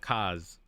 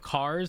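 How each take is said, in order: First: The R at the end is dropped. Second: The R at the end is pronounced.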